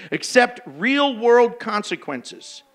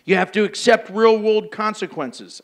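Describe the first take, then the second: First: "Accept real-world consequences" slowed, each word weighted; slow emphatic repeat. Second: Said in the usual way. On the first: Shown as a demonstration. Preacher repeating the point to the congregation, slow and emphatic.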